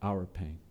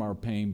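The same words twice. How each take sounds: First: OUR pain, the word our stressed and the line dropping soft; hushed, with the stress shifted onto our. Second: Our PAIN, the word pain leaned on and held; quiet, with the stress landing on pain. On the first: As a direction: lean on our and let pain fall away. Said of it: "a God who took on flesh and entered". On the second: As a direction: put the weight on pain. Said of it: "God who is removed from". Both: Shown as a demonstration.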